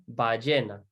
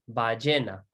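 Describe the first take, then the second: The two takes are said the same way.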